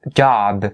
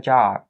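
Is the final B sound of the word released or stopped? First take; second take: released; stopped. First: The final B is fully released. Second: The final B is held without release. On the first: The speaker calls it wrong. "I'm not saying job, job, because this is just too much work" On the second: The speaker calls it right. "made it a stopped B sound"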